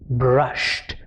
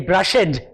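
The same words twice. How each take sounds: First: The ending is a short T sound. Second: The ending is an extra syllable. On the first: The speaker calls it right. "It sounded like a T" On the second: The speaker calls it wrong. "I do not say brushed. It doesn't sound good"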